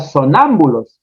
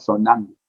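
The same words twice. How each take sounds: First: The word is pronounced in its standard form. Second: The word is pronounced in a distorted form. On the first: This is the standard form of the word. The speaker calls it right. "Cantinflas no decía sonámbulos" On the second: This is a comic barbarism of the word. The speaker calls it wrong. "sino sonámbulos"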